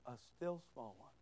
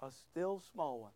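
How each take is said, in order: First: Hushed, very low and soft; very small voice. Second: Softened, lower voice; small voice. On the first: Preacher making congregation look closer, very small hushed voice. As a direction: drop almost to nothing. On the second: Preacher contrasting it with a big loud one, small voice. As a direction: bring it down soft and low. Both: Shown as a demonstration. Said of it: "Not a big, fat, loud one".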